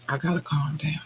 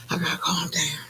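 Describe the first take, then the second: First: Said in the usual way. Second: Whisper. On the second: Real, not acted. Calming herself after screaming.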